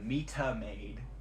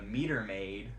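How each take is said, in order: First: It is said in a British accent. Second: It is said in an American accent. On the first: "it's that British accent coming in" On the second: "if we say lovely Rita meter maid, it doesn't really flow that well"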